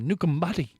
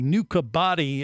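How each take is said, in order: First: An m sound comes before the b. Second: The middle consonant is a plain b sound. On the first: This is the local Fijian way of saying it. "she was saying Nukambati" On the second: This is the plain spelled-out form of the name. "it's really Nukabati is how you would just phonetically say it"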